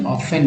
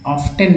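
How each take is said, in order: First: ऑफन with F running straight into the last syllable; silent T. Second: ऑफ्टन with an audible T after the F; T pronounced. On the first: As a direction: drop the T in ऑफन. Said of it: "ऑफन पढ़ेंगे". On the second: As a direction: sound the T in ऑफ्टन. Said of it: "ऑफ्टन नहीं पढ़ेंगे". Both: Shown as a demonstration.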